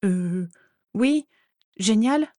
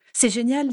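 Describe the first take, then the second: First: Hesitant agreement, rising in pitch; stammering. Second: Higher, bubbly enthusiasm on "génial"; excited delight. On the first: Narcissa answers her delighted friend, stammering. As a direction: falter between words, half-convinced. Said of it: "bafouilla Narcissa". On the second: Friend looks forward to next year together, excited. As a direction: gush it, thrilled, pitch lifted. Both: A narrator's reading.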